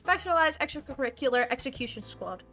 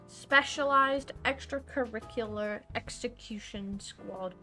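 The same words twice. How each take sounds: First: The phrase is rushed out very quickly. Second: The phrase is said at a normal speed.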